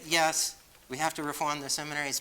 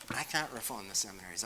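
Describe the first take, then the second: First: "yes" hit high and loud, the rest of "we have to reform the seminaries" still raised; stress on yes. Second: "can't" carries the weight, the rest of "I can't reform the seminaries" at normal level; stress on can't. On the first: Priest granting seminary reform is needed, stress on "yes". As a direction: lean hard on "yes" to concede the point. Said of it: "but I can't reform the seminaries". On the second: Priest admitting he can't fix seminaries, stress on "can't". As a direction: press on "can't" to mark the limit. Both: Real, not acted.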